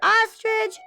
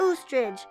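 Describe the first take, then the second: First: The word begins with an open ah sound. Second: The word begins with a long oo sound. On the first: The speaker calls it right. "Ah for ostrich" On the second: The speaker calls it wrong. "oo for oostrich"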